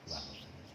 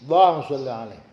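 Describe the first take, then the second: First: It is said softly, without a raised voice. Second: It is said loudly, with a raised voice.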